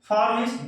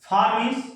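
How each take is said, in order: No difference in how they are said.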